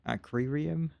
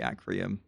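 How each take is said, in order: First: The word is said with the extra R sound. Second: The word is said without the extra R sound. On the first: "Am I gonna say it like that?" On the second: "I might just say Acrium because it's uh, too annoying to say. Uh, the extra R in there"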